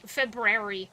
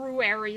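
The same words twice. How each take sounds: First: The first 'u' sound is almost dropped. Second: The first 'u' sound is clearly pronounced. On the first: The speaker calls it right. "like you almost don't even say the ooh" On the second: The speaker calls it wrong. "you don't say it like that"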